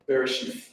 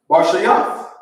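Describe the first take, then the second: First: It starts with two syllables, 'be-re'. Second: It starts with one syllable, 'bar'. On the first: This is the reading with the added vowel marks. The speaker calls it wrong. "That's how they pronounce this word" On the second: This is the reading without the vowel marks. The speaker calls it right. "the first word is um Barshayath"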